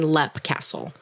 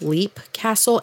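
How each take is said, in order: First: The first word has a short 'e' vowel. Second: The first word has a long 'ee' vowel. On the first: "and Lep Castle" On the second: "I've seen it and heard it pronounced as both Leap Castle"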